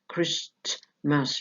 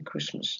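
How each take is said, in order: First: The t sound in the middle is pronounced. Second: The t sound in the middle is dropped. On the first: The speaker calls it wrong. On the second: The speaker calls it right.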